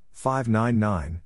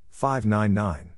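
Both takes have the same delivery.

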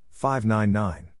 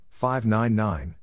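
No difference in how they are said.

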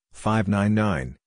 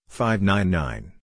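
Both takes have the same delivery.

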